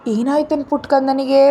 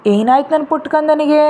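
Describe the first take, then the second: First: Put-on gently comforting the child, asking what ಕಂದನಿಗೆ is upset about; mildly soothing grandma voice; soothing grandmother. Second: Put-on a lilting, tender young mother's voice; sweet voice. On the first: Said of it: "ಅವನ ಸಮಾಧಾನ ಮಾಡ್ತಾ ಹೇಳಿದ್ರು". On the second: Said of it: "ಒಂದ್ ಮಧುರವಾದ ಧ್ವನಿ".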